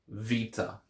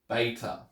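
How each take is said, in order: First: The word begins with a V sound. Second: The word begins with a B sound. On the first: This is the modern Greek pronunciation. "I pronounce it with a V sound because that's how it's pronounced in modern Greek" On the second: This is the Erasmian pronunciation. "If you're using Erasmian Greek, the name of the letter is Beta"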